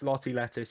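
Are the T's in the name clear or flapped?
clear. Non-American accent, with crisp clear T sounds.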